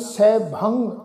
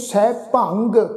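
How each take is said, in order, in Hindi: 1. इसके बजाय शब्द का अंत एक नासिक्य ध्वनि से होता है। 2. शब्द का अंत एक स्पष्ट कठोर 'g' ध्वनि से होता है। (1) "ਨਾਸਕੀ ਉਚਾਰਨ ਹੁੰਦਾ ਵਾ" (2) "ਗੱਗੇ ਦੀ ਟੋਨ ਵਿੱਚ ਅਸੀਂ ਉਚਾਰਨ ਨਹੀਂ ਕਰਨਾ"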